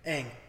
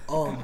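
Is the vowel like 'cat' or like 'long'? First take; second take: cat; long. First: The vowel sounds like the one in cat. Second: The vowel sounds like the one in long. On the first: This is how the name is said in the original show. The speaker calls it right. "how do you say the main character's name" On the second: This is how the name is said in the film adaptation. The speaker calls it wrong. "You know how they pronounce it in the movie?"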